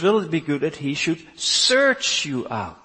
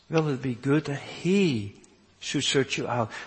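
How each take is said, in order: First: The word search is strongly stressed. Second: The word search has no special stress.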